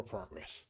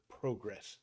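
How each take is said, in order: First: "progress" said prah-gress, short ah in the first syllable. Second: "progress" said pro-gress, long oh in the first syllable. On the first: Streamer offers chat the other way, "progress" with an ah vowel. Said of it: "Or progress". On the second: Streamer to chat, "progress" with a long oh vowel. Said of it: "That's the S word". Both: Shown as a demonstration.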